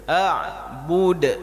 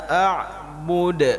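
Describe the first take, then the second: Both takes have the same delivery.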